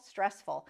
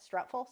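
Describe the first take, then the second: First: Said in the usual way. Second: Stressful? with a rising, unsure tune; Stressful? lifted at the end, doubtful; Stressful as a question. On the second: Real, not acted. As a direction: check the word Stressful? like a guess. Unsure of the word she blanked on.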